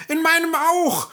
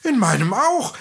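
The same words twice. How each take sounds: First: Very high and louder, falling, stress on meinem; excited dwarf call. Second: Much higher and louder, rising on auch; dwarf chiming in with a rising call; excited dwarf call. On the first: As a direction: shout it with the tune dropping off. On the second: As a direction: call out eagerly, voice lifting at the end. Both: A narrator's reading. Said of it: "riefen die Zwerge jetzt durcheinander".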